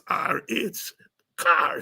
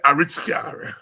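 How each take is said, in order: First: The middle is said as two letters. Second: The middle is said as the word rich. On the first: This is what the name really was. The speaker calls it right. "I realized it was R H car" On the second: This is how it was heard as a child. The speaker calls it wrong. "we used to say a rich car"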